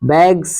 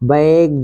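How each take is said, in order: First: The word ends with a hissing s sound. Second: The word ends with a buzzing z sound. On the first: The speaker calls it wrong. "बैग्स नहीं कहना है" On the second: The speaker calls it right. "बैग्ज कहना है"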